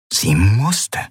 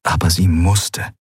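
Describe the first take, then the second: First: "musste" drawn out with rising pitch; stress on musste. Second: Said in the usual way. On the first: A narrator's reading. Exhausted woman urging herself on, stress on "musste". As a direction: push "musste" upward, insisting. Emphatic repeat of her resolve.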